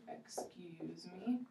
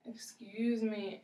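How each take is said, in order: First: Slow, soft whisper of excuse me; whispered demo. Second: Said in the usual way. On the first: Shown as a demonstration. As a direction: breathe it gently, no voice. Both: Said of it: "That's a very nice way".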